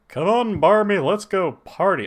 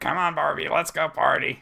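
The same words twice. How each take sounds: First: It is said in a Hank Hill voice. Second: It is said in a Beavis voice.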